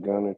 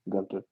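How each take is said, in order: First: The T sound in the middle is dropped. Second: The T sound in the middle is pronounced. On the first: The speaker calls it wrong. "you use that East Texas" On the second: The speaker calls it right. "pronounce the T"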